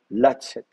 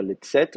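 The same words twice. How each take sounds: First: "la tset" with an open A in la; full A vowel. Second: "les tset" with a short E in les; reduced first vowel. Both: Shown as a demonstration. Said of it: "on va pas dire les tset".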